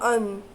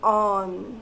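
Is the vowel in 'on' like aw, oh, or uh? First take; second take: uh; aw. First: The vowel sounds like a short uh. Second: The vowel sounds like an open aw. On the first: The speaker calls it wrong. "ओन किंवा अन असं नाही आहे" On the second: The speaker calls it right. "ओ says ऑ here"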